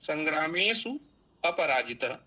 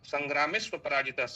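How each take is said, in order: First: The two words are said separately, unjoined. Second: The two words run quickly together as one.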